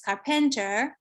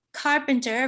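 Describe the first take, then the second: First: "carpenter" stressed on PEN; second-syllable stress. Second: "carpenter" stressed on CAR; first-syllable stress. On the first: Lecturer imitates the shifted stress, "carpenter" stressed on second syllable. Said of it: "moved his stress to the second syllable". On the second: Lecturer contrasts two stresses, "carpenter" stressed on first syllable. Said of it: "stress is on the first syllable". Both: Shown as a demonstration.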